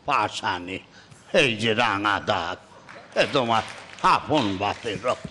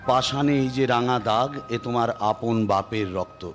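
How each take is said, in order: First: The voice is breathy and wheezy, like asthma. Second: The voice is plain, without added breathiness.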